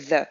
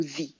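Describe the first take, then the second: First: The said with a long ee as thee. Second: The said with a short neutral vowel, thuh, much softer. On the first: Teacher showing the two ways to say the. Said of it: "on va dire". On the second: Teacher giving the second way to say the. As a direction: say the like thuh, quietly. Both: Shown as a demonstration.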